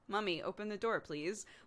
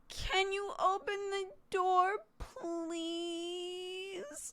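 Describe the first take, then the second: First: It is said in a plain voice. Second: It is said in a whiny voice.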